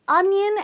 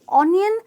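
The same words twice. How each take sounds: First: The first vowel is a short 'uh' sound. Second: The first vowel is an 'oh' sound. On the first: The speaker calls it right. "It's onion" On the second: The speaker calls it wrong. "not onion"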